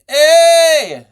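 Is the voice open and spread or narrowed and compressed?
narrowed. The voice sounds narrowed and more compressed. "there's more compression because of the narrowing of the tongue"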